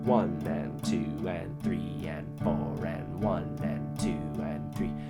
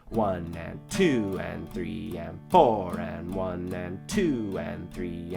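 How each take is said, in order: First: All counts are said at even loudness. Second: The counts two and four are said louder.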